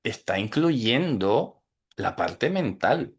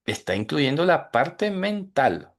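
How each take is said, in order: First: Said in the usual way. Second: Repeated higher, with "incluyendo la parte mental" lifted for emphasis; teacher repeating a key point to students, raised and emphatic. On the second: Shown as a demonstration. Say "Está incluyendo la parte mental" again, pitched up to drive it home.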